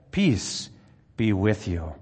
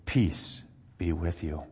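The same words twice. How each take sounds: First: Joyful greeting. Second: "Peace be with you" said slow, soft and low; soft greeting. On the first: Jesus greets the disciples again. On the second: Jesus appears in the locked room, slow and hushed. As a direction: breathe "Peace be with you" out slowly and quietly. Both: Acted.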